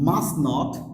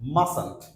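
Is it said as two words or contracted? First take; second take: two words; contracted. First: It is said as two full words. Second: It is said as one contracted word.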